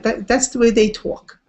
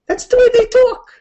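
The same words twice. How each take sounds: First: Said in the usual way. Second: Much higher and louder, thrown out; emphatic mock shout. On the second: Shown as a demonstration. Teacher repeating the line, high and loud. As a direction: belt it like a shrugging exclamation.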